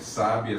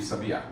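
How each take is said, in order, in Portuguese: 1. A tônica está na primeira sílaba. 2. A tônica está na última sílaba. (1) "Conforme eu vou andando com a tônica" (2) "Conforme eu vou andando com a tônica"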